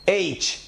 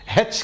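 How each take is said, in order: First: It begins with a plain vowel. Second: It begins with an h sound. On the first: The speaker calls it right. "इस हर्फ की सही pronunciation है एच" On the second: The speaker calls it wrong. "हेच करके बोलने की कोशिश करते हैं जो गलत प्रोनाउंसिएशन है"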